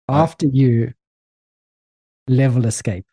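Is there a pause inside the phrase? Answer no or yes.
yes. It is said with a long pause inside. "Just like too long, the pause"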